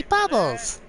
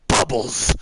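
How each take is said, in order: First: Bubbles sung out much higher and bright; happy Bubbles. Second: A half-hearted angry bark of Bubbles; mock angry shout. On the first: Streamer showing that Bubbles wants a happy voice. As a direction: squeal it out happily. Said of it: "You just wanna say". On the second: Streamer saying a chat name in a mock angry voice. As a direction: shout it like you're mad, lightly. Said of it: "This is my angry voice". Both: Shown as a demonstration.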